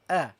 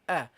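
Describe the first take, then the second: First: The vowel sounds gentle and light. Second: The same.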